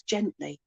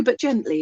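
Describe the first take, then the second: First: Gently repeated much softer, almost under the breath. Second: Said in the usual way. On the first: Retold or imitated. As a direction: echo gently softly and tenderly. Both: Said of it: "he says".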